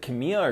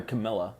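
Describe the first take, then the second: First: Camilla said with a Y sound, ka-MEE-ya; Spanish-style Camila. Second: Camilla said as ka-MIL-a. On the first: Unsure which name is right, Camilla said as ka-MEE-ya. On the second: Checking the actress's name, Camilla said as ka-MIL-a. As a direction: say Camilla with a short i and clear L. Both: Shown as a demonstration. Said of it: "is it Camilla or Camilla".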